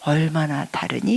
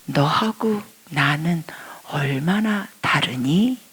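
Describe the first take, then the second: First: Soft, gentle asking; God's tender question; kind question. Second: Soft, slow whispered question; God's kind whisper; gentle whisper. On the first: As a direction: ask it kindly. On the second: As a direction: ask it tenderly, barely voiced. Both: Retold or imitated. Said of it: "너무너무 친절하게 말씀하십니다".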